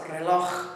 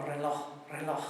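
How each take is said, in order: First: "reloj" ending in an audible ch sound, slowly; throaty ch ending. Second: "reloj" with its final ch lightened, lower; lightened ch ending. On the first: Teacher reminding about the ch, sounded at the end. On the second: Teacher showing how ch can lighten, soft ending. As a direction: let the end of "reloj" fade lightly. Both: Shown as a demonstration. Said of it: "the ch could lighten".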